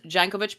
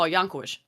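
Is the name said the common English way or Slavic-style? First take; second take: common English; Slavic-style. First: The name is said the common English way. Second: The name is said in a Slavic way. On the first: This is how most people say the name. "I've heard everyone says Jankovic" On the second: This is how the name is read in Russian or Ukrainian. "I spent so much time working on that Russian and Ukrainian stuff that I was like, oh"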